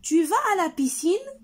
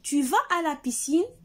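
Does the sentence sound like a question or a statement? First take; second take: question; question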